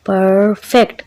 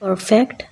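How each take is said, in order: First: परफेक्ट split as पर-फेक्ट, first syllable drawn out. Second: Said in the usual way. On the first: Shown as a demonstration. Teacher breaking परफेक्ट into two syllables for children, syllable by syllable. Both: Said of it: "इसके दो syllables हैं".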